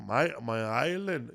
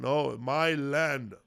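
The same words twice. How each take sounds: First: "My, my island" said slowly, run together as one word; misheard quote. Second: "my land" slowed right down as two separate words; corrective emphasis. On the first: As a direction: say "island" so it could be mistaken for Ireland. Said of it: "You mean Ireland?". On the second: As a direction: stretch out "my land" to correct the listener. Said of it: "so it was his land". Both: Retold or imitated.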